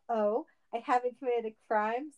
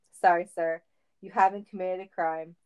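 First: Rising, indignant question at normal volume; indignant mock yell. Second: Said in the usual way. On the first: A narrator's reading. Sonic answering officer's refusal, mildly indignant. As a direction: throw it back with a touch of outrage. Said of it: "Sonic yelled".

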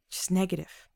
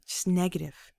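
No difference in how they are said.

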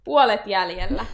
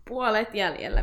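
First: Loud announcement. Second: Said in the usual way. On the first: Real, not acted.

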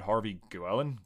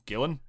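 First: "Guillen" with a w glide, like gwell-en; unsure "Guillen", sounding the u; trying a pronunciation. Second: "Gillen" with no w, like GILL-en; unsure "Gillen", rhyming with villain; trying a pronunciation. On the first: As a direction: try "Guillen" as GWELL-en, questioning. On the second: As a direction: try "Gillen" with hard g, questioning. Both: Shown as a demonstration. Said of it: "do I pronounce it right?".

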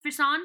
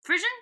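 First: "Frisson" with an s sound and nasal French ending; French-style pronunciation. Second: "Frisian" said English-style, with a zh in the middle; anglicised pronunciation. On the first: Reader puzzling out a French word, French-style "Frisson". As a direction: try "Frisson" the French way, stressing the end. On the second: Co-host puzzling over an unfamiliar word, anglicised "Frisian". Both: Shown as a demonstration. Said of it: "That looks like a French word".

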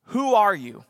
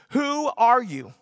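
First: Said in the usual way. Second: Who ARE you, slowed and pressed; the crowd pressing John; slow insistent question. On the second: Retold or imitated. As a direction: lean on ARE, asking again. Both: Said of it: "the question that they ask John".

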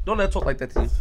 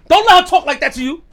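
First: Said in the usual way. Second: Higher, louder hype, pushing his friend to fire back; loud egging on. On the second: Real, not acted. Urging friend to answer back.

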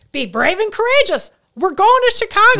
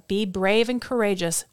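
First: Loud, high, thrilled "Be brave and courageous"; the husband seizing on the verse as a go-ahead; fired-up husband. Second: Said in the usual way. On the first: Retold or imitated. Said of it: "So my husband's like". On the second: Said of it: "it says".

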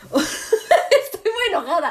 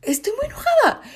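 First: Laughing while saying "Estoy muy enojada", slower; "Estoy muy enojada" said through a laugh. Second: "Estoy muy enojada" in a much higher, pouty whine; much higher sulky whine of "Estoy muy enojada"; whiny pout. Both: Real, not acted.

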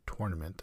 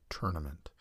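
First: Tournament starting like tore; TOR-nament. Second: Tournament starting like turn; TUR-nament. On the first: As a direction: say tournament with an or vowel. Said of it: "I sometimes say tournament". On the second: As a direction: say tournament with an er vowel. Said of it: "I've heard others say tournament". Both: Shown as a demonstration.

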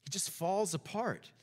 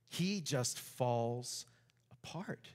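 First: Said in the usual way. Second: Very slow and soft, fading to a whisper on apart; dramatic slow drop. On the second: Shown as a demonstration. Preacher to congregation, slow and fading to a whisper. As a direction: let the words sink and die away. Preacher stresses Jonah's collapse.

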